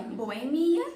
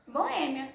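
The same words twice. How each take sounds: First: BoeMIa com o I forte; tônica no MI. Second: BoÊmia com o Ê forte; tônica no Ê. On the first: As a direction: acentue o MI de boemia. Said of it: "Algumas palavras pronunciam". (boemia com ênfase na penúltima vogal) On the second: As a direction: acentue o Ê de boêmia. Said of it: "e outras boêmia". (boêmia com ênfase no Ê) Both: Shown as a demonstration.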